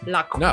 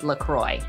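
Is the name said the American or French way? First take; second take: French; American. First: It is said with a French pronunciation. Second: It is said with an American English pronunciation. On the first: "if you want to be truly French, you have to say LaCroix. Like, they don't even say the R" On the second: "for the American English version, was LaCroix"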